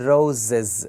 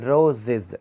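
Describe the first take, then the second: Both takes have the same delivery.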